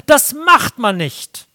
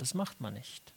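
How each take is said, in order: First: Loud, slow, scolding rule; loud, slow self-righteous verdict; stern loud rule. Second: Much softer, lower murmured repeat of "das macht man nicht"; soft, low, resigned restatement of "das macht man nicht"; quiet echo. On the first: Retold or imitated. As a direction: bark out the moral rule. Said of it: "dass ich sage". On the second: Shown as a demonstration. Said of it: "Und der Standard ist einfach der Anstand".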